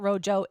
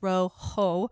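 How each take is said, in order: First: The middle consonant is an English J sound. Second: The middle consonant is a breathy H sound. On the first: The speaker calls it wrong. "It's not Rojo" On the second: The speaker calls it right. "the J is is is like an H"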